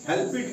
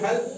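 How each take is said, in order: First: The ending is said as an extra syllable. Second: The ending is joined without an extra syllable. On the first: The speaker calls it wrong. "हेल्प इट नहीं पढ़ते हैं" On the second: The speaker calls it right. "इसको हेल्प पढ़ते हैं"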